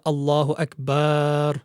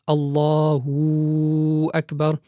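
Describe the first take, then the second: First: The vowel after the b is stretched long. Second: An extra w sound joins the two words. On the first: "there should not be an extension of the ba of the word akbar" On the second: "increase the wow, the wow sakina"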